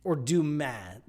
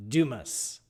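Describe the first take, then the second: First: Dumas said as too-MAH, final vowel open; alternative pronunciation. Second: Dumas said slowly with a long oo, doo-mus; pronunciation demo. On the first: Host offering a second version to listeners: Dumas, too-MAH. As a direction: Dumas with a t-like start and open ending. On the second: Host correcting a listener's town name: Dumas, doo-mus. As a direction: Dumas as doo-mus, first syllable stressed. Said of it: "it is pronounced Dumas". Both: Shown as a demonstration.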